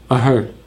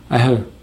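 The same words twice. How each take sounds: Both takes have the same delivery.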